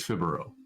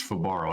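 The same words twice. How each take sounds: First: Fibaro as FIB-uh-ro; stress on first syllable. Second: Fibaro as fuh-BAR-oh; stress on second syllable. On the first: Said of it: "I think it's Fibaro". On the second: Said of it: "I don't think it's Fibaro". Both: Shown as a demonstration.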